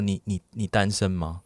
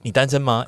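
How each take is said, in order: First: It sounds hesitant and worried. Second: It sounds light and eager to chat.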